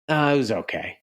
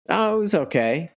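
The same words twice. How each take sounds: First: It sounds unhappy, hiding that it went badly. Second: It sounds genuinely content and fine.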